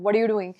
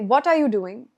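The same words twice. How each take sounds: First: The t in 'what' sounds like a d. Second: The t in 'what' is clearly pronounced. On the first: This is how people talk casually to friends. The speaker calls it wrong. "Instead of ending that what with a d sound" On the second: The speaker sounds eloquent and clearly understood. The speaker calls it right. "stress on your T's"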